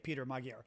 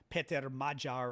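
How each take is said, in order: First: The name is said with American pronunciation. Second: The name is said with Hungarian pronunciation. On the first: "I'm pronouncing it the American way" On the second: "is how you pronounce his name"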